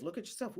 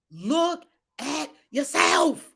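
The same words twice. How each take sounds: First: Very soft, low inward murmur; quiet self-reminder. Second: Slow, word-by-word command; emphatic command. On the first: Acted. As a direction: say it privately to yourself. Same words as inward self-talk. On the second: Real, not acted. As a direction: spell it out slowly, each word separate. Emphatic command, then quiet self-application.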